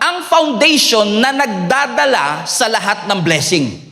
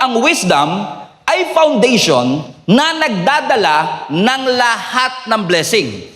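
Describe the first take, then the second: First: It is said at a normal pace. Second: It is said more slowly.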